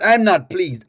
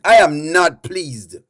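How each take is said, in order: First: Said in the usual way. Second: Slow, low, every word spelled out; displeased. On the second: Pretend. Host telling the laughing chat off, slow and displeased. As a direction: lay down mock displeasure word by word.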